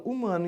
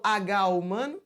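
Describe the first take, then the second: First: Said in the usual way. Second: HUMANO with the letter name agá said before it, questioning; wrong, letter H pronounced. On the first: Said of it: "Eu falo humano". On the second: Shown as a demonstration. Teacher asking students if H is sounded, agá spoken before humano, rising. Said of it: "eu falo H humano?".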